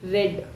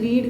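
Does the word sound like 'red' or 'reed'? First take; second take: red; reed. First: The vowel is short, as in 'red'. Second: The vowel is long, as in 'reed'. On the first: It is the past tense. The speaker calls it right. "రెడ్ అని చదువుతాం" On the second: It is the present tense. The speaker calls it wrong. "ఏ అంటే రీడ్ కాదు"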